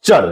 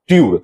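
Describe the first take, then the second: First: The ending is said with a 'ch' sound. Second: The ending is said with a 't' and 'yood'. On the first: This is how it is actually read. The speaker calls it right. "जबकि हम लोग पढ़ते हैं" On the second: This is how the spelling literally suggests it. The speaker calls it wrong. "सीधा pronunciation समझे, तो ये होना चाहिए"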